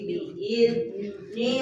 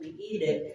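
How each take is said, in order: First: The middle consonant is a soft 'z' sound. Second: The middle consonant is a bounced 'd' sound. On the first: The speaker calls it right. "tapi biizni rabbihim" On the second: The speaker calls it wrong. "bukan biide"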